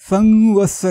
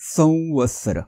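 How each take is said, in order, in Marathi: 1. 'v' च्या आधीचा अनुनासिक हा दुसरा अनुनासिक ध्वनी आहे. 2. 'v' च्या आधीचा अनुनासिक हा अनुनासिक 'v' आहे.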